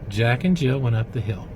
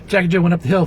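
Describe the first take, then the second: First: The line is read slowly and clearly articulated. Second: The line is rushed and carelessly run together. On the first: The listener is helped to grasp it. The speaker calls it right. "articulate that" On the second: The listener is not helped to grasp it. The speaker calls it wrong. "You wouldn't just go"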